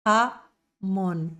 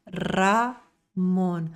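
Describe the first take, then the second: First: "Ramon" with the R rasped in the throat like a J. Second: "Ramon" with a trilled tongue R. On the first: Teacher showing the wrong throaty R. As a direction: say "Ramon" from the throat, Portuguese style. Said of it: "Garganta é J". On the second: Teacher showing the right Spanish R. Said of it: "E o R é língua". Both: Shown as a demonstration.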